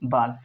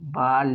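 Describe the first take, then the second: First: The L sound is short, said once. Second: The L sound is held long, doubled. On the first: The speaker calls it right. "लेकिन हमने सिर्फ पढ़ा बाल" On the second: The speaker calls it wrong. "Double letter दिख जाए तो कभी भी उसको यहाँ पर हमको पढ़ना चाहिए था"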